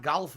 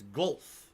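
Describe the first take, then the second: First: "golf" as "gahlf", open "ah"; rejected "golf" pronunciation. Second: "golf" as "gohlf", rounded vowel; supposedly correct "golf". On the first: Streamer mock-correcting himself for viewers, open "gahlf". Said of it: "It's not golf". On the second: Streamer mock-correcting himself for viewers, rounded "gohlf". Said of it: "It's golf". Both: Shown as a demonstration.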